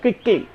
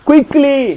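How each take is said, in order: First: It begins with a single gliding 'kwi' sound. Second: It begins with a separate 'ku-yi' sound. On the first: The speaker calls it right. "அதுதான் correct" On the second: The speaker calls it wrong. "குயிக்லின்னு சொல்ல"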